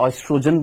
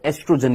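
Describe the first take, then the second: First: The word begins with an 'oy' sound. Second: The word begins with a plain 'e' sound. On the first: "जो American English है उसमें हम क्या बोलते हैं, ऑयस्ट्रोजन बोलते हैं" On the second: "ओ silent होता है, तो एस्ट्रोजन ही बोलते हैं"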